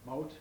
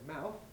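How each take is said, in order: First: It is said in a West Indian accent. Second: It is said in a southern English accent. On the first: "I think aha, West Indian" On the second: "then I think that's southern"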